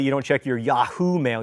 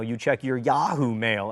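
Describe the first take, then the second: First: "Yahoo" with the stress on the second syllable, ya-HOO; mispronounced Yahoo. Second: "Yahoo" with the stress on the first syllable, YAH-hoo; corrected Yahoo. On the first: Alabaman admitting his mistake, "Yahoo" wrongly said ya-HOO. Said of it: "don't know how to say". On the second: Alabaman showing what he learned, "Yahoo" slowly said YAH-hoo. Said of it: "I just recently learned". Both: Shown as a demonstration.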